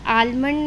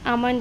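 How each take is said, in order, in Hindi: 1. L की ध्वनि M से पहले बोली जाती है। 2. L की ध्वनि M से पहले साइलेंट होती है। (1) "नहीं होता है" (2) "होता है"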